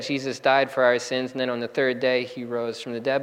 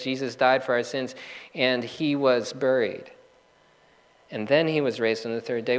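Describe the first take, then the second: First: Said in the usual way. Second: "and he was buried" slowed and set apart; stress on buried. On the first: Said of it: "The statement could have just said". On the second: Shown as a demonstration. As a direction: linger on "he was buried" before "raised". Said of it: "It says".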